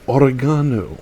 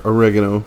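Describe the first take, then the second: First: It is said in a non-American way. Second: It is said in an American way.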